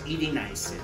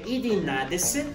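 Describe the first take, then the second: First: The middle of the word is contracted and shortened. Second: Every syllable of the word is said in full. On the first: This is the form used in everyday speech. "pero en realidad decimos" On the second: This is the form used in writing. "Se escribe"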